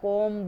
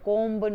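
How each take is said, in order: First: The b at the end is silent. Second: The b is pronounced at the end. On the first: The speaker calls it right. "कॉम बोला जाएगा, तो बी silent है" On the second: The speaker calls it wrong. "कोम्ब नहीं बोला जाएगा"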